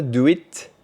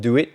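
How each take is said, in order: First: "do it" with a crisp, released final t; fully released T. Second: "do it" with the final t held back, unreleased; softened final T. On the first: Teacher showing learners the mistake, "do it" with a hard final t. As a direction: pop the t at the end of "do it". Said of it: "C'est pas do it". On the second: Teacher showing learners English final consonants, "do it" with a muted t. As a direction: let the t at the end of "do it" nearly vanish. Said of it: "la diminution des sons t et d à la fin des mots". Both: Shown as a demonstration.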